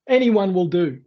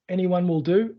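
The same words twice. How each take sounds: First: Croaky voice. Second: Said in the usual way. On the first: Real, not acted. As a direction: talk through a croaky throat. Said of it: "I start to sound like a croaky old, old frog". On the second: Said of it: "I just cleared my throat".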